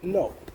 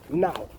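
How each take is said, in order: First: It is said in a Manchester accent. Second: It is said in a Cockney accent. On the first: "up north, Manchester, and that we'll be like" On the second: "How do the Cockneys say it? They go"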